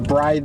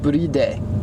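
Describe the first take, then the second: First: It is said with an English-style pronunciation. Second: It is said with a Japanese-style pronunciation.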